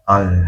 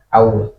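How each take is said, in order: First: The vowel goes straight into a clear L. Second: The vowel glides into a w-like sound. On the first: The speaker calls it right. "yang betul adalah kita dari A langsung ke lam" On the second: The speaker calls it wrong. "Nggak ada wawunya, nggak ada au"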